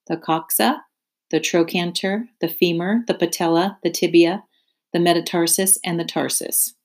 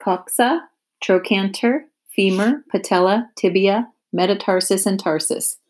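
First: Spider's steady listing voice, each name lifted at the end; name each part calmly, like a lesson; Charlotte listing leg parts. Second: Wilbur repeating names. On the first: Charlotte teaching Wilbur her leg parts, measured listing. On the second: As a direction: sound out each strange word like a learner. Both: Acted. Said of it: "Say those names again".

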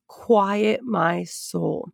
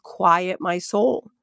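First: Slow, calming. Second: Said in the usual way. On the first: Real, not acted. Teacher recalling how she settled herself, slow and calming.

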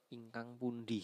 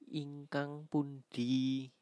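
First: Said in the usual way. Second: Ingkang pundi, slow and clear; slow kromo word. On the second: Shown as a demonstration. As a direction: spell out "ingkang pundi" slowly for the class. (ucapkan pelan dan jelas)

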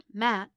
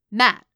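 First: A tentative, questioning call of the name; mild, enquiring address; gentle questioning. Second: Loud, abrupt shout of the name; sudden commanding call, much louder; sharp bark. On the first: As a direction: check on someone gently. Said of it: "she asked". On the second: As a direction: bark it to snap someone to attention. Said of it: "he barked". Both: A narrator's reading.

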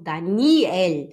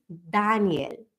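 First: "Daniel" with a long stressed middle NI; wrong stress on Daniel. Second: "Daniel" slow, DA long and strong; correct German stress. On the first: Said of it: "e não". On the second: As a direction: model "Daniel" stressed on the first syllable. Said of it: "e sim". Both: Shown as a demonstration.

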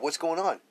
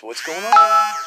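First: Said in the usual way. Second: Put-on much higher and louder, a child's voice crying out what's going on; bewildered child. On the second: Child asking what's happening when the parent snaps, high and loud. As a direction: cry it out like a confused little kid.

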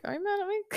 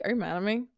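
First: Tiny, high, soft little voice; mock-anxious question. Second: Said in the usual way. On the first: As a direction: squeak it quietly, much higher than usual. Mimics her anxious question to client.

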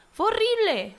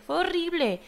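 First: "horrible" flung out much higher and louder; horrified exclaim. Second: Said in the usual way. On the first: Real, not acted. Recalling how cruel 2006 was, horrified high exclaim. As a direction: hit "horrible" high and hard, appalled.

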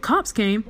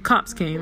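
First: Mom's questioning repeat, pitch lifting; surprised echo question. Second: Said in the usual way. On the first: Retold or imitated. Mom hears police visited, surprised question. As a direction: repeat the news back in mild disbelief.

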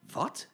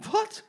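First: Low, short gentlemen's cry; men's shocked what. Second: Very high shocked shriek; ladies' shocked what. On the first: Gentlemen shocked by the detour, low cry. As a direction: bark it as startled men. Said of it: "riepen alle meneren". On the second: Ladies shocked by the detour, high squeal. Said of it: "riepen alle mevrouwen". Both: Acted.

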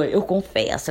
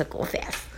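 First: Said in the usual way. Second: "eu confesso" whispered under the breath; whispered confession. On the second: Real, not acted. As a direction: drop to a whisper to admit it. ("eu confesso" sussurrado)

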